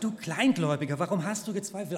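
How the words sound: The tone is dismissive and belittling. The listener is being put down. "Klang es vielleicht so, oh, ... Aus dir wird nie was"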